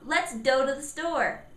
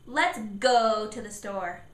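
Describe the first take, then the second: First: The word go starts with a D sound. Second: The word go starts with a stressed G. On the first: The speaker calls it wrong. "I said D for G" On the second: The speaker calls it right. "I put emphasis on the G sound"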